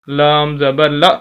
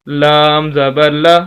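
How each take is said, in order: Both takes have the same delivery.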